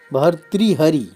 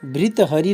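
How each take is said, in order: First: The word begins with 'bhar', followed by 'tri'. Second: The word begins with 'bhri', with no separate 'bhar'. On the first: The speaker calls it right. "इस प्रकार इसका उच्चारण करेंगे" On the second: The speaker calls it wrong. "नहीं कहेंगे"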